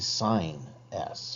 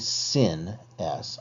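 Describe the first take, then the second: First: The first word sounds like 'sign'. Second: The first word sounds like 'sin'. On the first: The speaker calls it right. "I say sine s" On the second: The speaker calls it wrong. "I don't say sin s"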